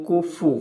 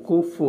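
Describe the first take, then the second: Both takes have the same delivery.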